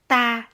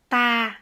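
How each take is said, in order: The two takes are said the same way.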